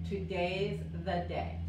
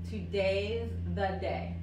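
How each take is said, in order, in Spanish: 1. La palabra 'is' se contrae en 'today'. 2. La palabra 'is' se contrae en 'today'.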